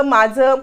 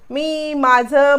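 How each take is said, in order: First: Said in the usual way. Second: Mocking drawl. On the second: A narrator's reading. Mocking his "my room.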